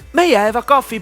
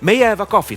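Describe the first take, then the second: First: The voice is pitched high. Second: The voice is pitched at a medium level. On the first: "High tone" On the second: "Medium tone, that is my voice now"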